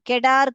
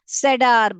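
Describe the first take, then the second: First: The word begins with a k sound. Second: The word begins with an s sound. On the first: The speaker calls it wrong. "इसको क sound नहीं पढ़ने का, गलत होगा" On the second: The speaker calls it right. "स sound पढ़ने का, जो कि सेडार बनेगा"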